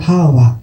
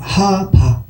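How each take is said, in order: First: The middle consonant is a w sound. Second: The middle consonant is a b sound. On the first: "또 다른 발음으로는" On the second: "희위의 어원이 뭐냐 하면"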